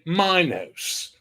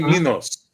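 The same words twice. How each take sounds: First: The name is pronounced the English way. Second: The name is pronounced the Greek way. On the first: This is how English speakers say it. "English say" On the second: This is how Greeks say it. "Greeks Greeks say"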